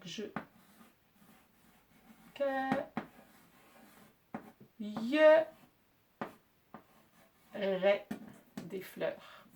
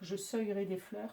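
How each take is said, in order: First: The verb begins with a K sound. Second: The verb begins with an S sound. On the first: The speaker calls it right. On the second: The speaker calls it wrong.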